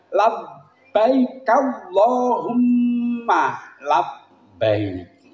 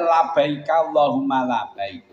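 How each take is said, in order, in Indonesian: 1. Bunyi b dibaca ganda dan ditahan. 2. Bunyi b dibaca pendek, tidak ditahan. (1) "Maka yang benar adalah"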